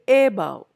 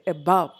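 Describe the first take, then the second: First: The stress is on the first syllable. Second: The stress is on the second syllable. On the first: The speaker calls it wrong. "I don't say above" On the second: The speaker calls it right. "it is the second syllable"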